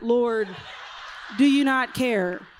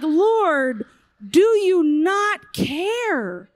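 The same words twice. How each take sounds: First: Indignant, head-wobbling "Lord, do you not care"; sassy with head wobble. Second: Loud, slow, drawn-out hurt cry; hurt plea. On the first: Martha sassing Jesus about her sister, head wobbling. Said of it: "there was a head wobble in that". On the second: Martha pleading to Jesus, wounded and loud. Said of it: "She was so hurt". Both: Retold or imitated.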